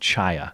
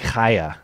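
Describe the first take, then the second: First: The first sound is a plain ch. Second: The first sound is a throaty ch. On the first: This is the speaker's own easier way. The speaker calls it wrong. "but I'm going with Chaya" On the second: This is the proper way to say the name. The speaker calls it right. "It's supposed to be Chaya"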